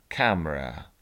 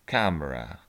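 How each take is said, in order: The two takes are said the same way.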